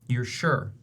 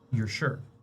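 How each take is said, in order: First: It is said loudly and forcefully. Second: It is said softly and calmly.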